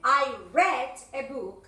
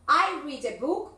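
First: The word read sounds like red. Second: The word read does not sound like red. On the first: The reading happened in the past. "se pronuncia como el color red, rojo, y ahí es el pasado" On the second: The reading happens in the present.

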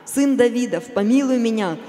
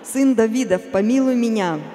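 Both takes have the same delivery.

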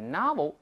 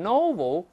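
First: It is said in an American accent. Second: It is said in a British accent. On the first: "美音中这个发音古怪，是o 变成r 的novel" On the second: "英国人往往读成novel"

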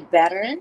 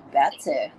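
First: It is said with an American accent. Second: It is said with a Singaporean accent. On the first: "when you say better in American English or Canadian English" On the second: "we say better"

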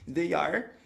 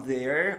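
First: Both words are said fully and separately. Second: The two words merge into one syllable.

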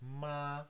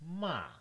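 First: The pitch stays high and level throughout. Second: The pitch falls from high to low. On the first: "the first one starts high and goes high all the way" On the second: "the falling tone, you start fairly high and then go all the way down to 1"

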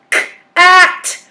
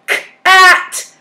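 The two takes are said the same way.

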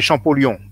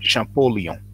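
First: It is pronounced the French way. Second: It is pronounced the English way. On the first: "in French we say Champollion" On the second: "in English you pronounce it Champollion"

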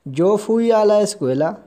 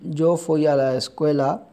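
First: It is said with questioning intonation. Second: It is said with plain statement intonation. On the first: The speaker asks whether they went to school. "लहजा तब्दील करना है" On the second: The speaker states they went to school. "जो पहला पहला हमने फिक्रा बनाया आई वेंट टू स्कूल"

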